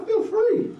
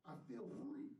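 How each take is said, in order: First: The quote flung up much higher; a lifted, exultant retelling of his answer; soaring quote. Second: Said in the usual way. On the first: Retold or imitated. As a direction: let the words fly up high with joy. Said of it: "he's like". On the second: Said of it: "He said".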